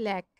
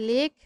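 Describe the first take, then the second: First: লেখ with an open e, like "lækh"; লেখ said "lækh", as spoken in contempt; correct open e. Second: লেখ with a closed e, like "lekh"; লেখ as "lekh", the spelling-based reading; wrong way. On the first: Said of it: "আমরা বলছি লেখ". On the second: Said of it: "আমরা লেখ বলছি না". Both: Shown as a demonstration.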